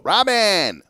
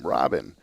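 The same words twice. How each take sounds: First: The name is said in a coaxing, drawn-out way. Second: The name is said in a casual, friendly way. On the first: The caller is about to ask for a favor. "like that, that meant that she needed something" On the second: The caller just wants to talk. "the way she said my first name"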